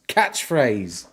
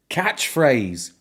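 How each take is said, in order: Both takes have the same delivery.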